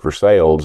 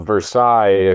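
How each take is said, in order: First: The name is said the local American way. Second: The name is said the French way. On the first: It refers to the town in Missouri. "if you're talking in South in Central Missouri" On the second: It refers to the palace in France. "If you're talking about Louis, uh, this palace in France"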